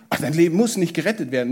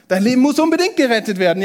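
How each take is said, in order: First: Fast, offhand shrug of a line; dismissive brush-off. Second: Higher, louder and fast, pressing hard; urgent emphasis. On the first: Preacher mocks the wrong message with a quick dismissive shrug. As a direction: toss it away as if it hardly matters. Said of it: "Jesus sagt nicht". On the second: Preacher voices Jesus' real message with urgent, louder insistence. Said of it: "Jesus sagt". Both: Retold or imitated.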